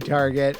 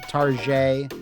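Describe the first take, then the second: First: It ends with a hard T sound. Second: It ends with a soft, French-like zh sound. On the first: The speaker calls it wrong. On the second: The speaker calls it right.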